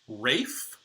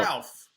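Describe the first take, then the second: First: The name rhymes with safe, with no L sound. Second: The name has an L sound, like alf. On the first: The speaker calls it right. "it's apparently Rafe Fiennes" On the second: The speaker calls it wrong. "it's not Ralph, which I always thought"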